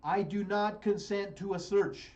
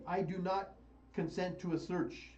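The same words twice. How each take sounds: First: Slow, firm, stress on "not"; firm refusal. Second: Said in the usual way. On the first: Shown as a demonstration. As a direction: say "not" hard and slow, each word firm. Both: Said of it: "here's what the words you need to understand".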